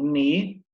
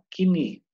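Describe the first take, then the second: First: The K is silent; it starts with N. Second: The K is sounded, with a vowel after it. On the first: The speaker calls it right. "o K ele não tem som" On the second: The speaker calls it wrong. "quer descobrir que é um brasileiro tentando falar inglês, ele vai falar kini"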